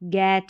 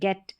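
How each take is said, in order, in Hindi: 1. स्वर लंबा, खुला और खिंचा हुआ है। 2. स्वर छोटा है और खिंचा हुआ नहीं है। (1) "गैट नहीं" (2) "ई का उच्चारण शॉर्ट है"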